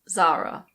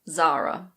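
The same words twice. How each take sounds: First: It is said with an English pronunciation. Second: It is said with an English pronunciation.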